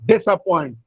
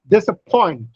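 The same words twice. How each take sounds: First: The main stress is on the first syllable. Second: The main stress is on the last syllable. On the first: The speaker calls it wrong. "It is not disappoint" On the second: The speaker calls it right. "Point has primary stress and dis has secondary stress"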